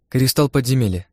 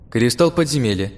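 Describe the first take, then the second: First: Smiling. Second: Said in the usual way. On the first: Acted. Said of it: "улыбнувшись, пояснила мне она".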